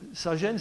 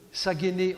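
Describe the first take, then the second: First: The word is given its French pronunciation. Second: The word is given its Greek pronunciation.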